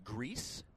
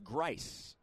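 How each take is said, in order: First: The vowel sounds like 'ee'. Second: The vowel sounds like 'eye'. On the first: The speaker calls it wrong. "a lot of people would say Greece" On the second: The speaker calls it right. "but pronounced Grice"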